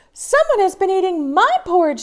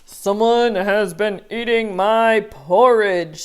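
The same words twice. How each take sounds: First: High, quick, loud mama bear; fussy mother bear, pitched up; a flustered mama bear voice. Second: Big bear growl of a voice; Papa Bear voice. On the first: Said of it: "said Mama Bear". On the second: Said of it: "said Papa Bear". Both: Acted.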